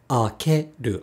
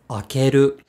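First: The pitch drops within the word. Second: The pitch stays level with no drop. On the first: The speaker calls it wrong. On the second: The speaker calls it right.

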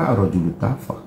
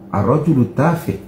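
First: The last word ends with an 'a' vowel. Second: The last word ends with an 'i' vowel. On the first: The speaker calls it wrong. "Sebenarnya dia baca pun salah. Bukan Ar-Rajulu Tafah" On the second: The speaker calls it right. "hadis dibaca dengan kasrah"

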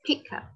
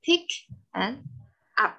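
First: The two words are said quickly and linked together. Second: The two words are said slowly and separately. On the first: "trong khi đọc nhanh ấy, thì cô sẽ thường nối hai cái âm này với nhau" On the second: "Mình đọc chậm thì mình sẽ đọc, mình đọc tách hai từ ra"

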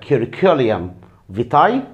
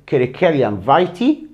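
First: It is said in a British accent. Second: It is said in an American accent. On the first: "ده بالبريتش" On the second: "اللي هو بالامريكان"

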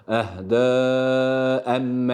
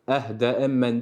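First: The final vowel of ehda is drawn out long. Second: The final vowel of ehda is kept short. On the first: The speaker calls it right. "Ehda emmen yemşi diye devam etmemiz gerekiyor" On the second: The speaker calls it wrong. "yani uzatmadan okuma doğru okuyuş olmaz"

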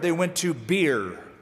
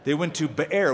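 First: The name is said as one syllable. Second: The name is said as two syllables. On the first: The speaker calls it wrong. "you'll get in your mind that they went to like the place where Budweiser's are made" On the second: The speaker calls it right. "The proper pronunciation would be Be'er"

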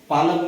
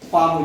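First: The L sound is pronounced. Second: The L sound is silent. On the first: The speaker calls it wrong. "पालम नाही म्हणतो आहे" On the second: The speaker calls it right. "पाम उच्चार केला"

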